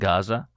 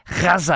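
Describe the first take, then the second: First: The name is said with a plain American pronunciation. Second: The name is said with an Arabic-style pronunciation. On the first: This is the ordinary, unaffected way of saying it. The speaker calls it right. "instead of saying Gaza" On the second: The speaker is affecting a local, insider pronunciation. The speaker calls it wrong. "as if they are from that part of the country"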